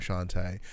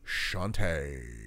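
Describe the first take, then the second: First: The name is said flatly, without flair. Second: The name is said with showy flair. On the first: The speaker calls it wrong. "you don't say it as, hey, I'm Shantae" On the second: The speaker calls it right. "you add flair to that name"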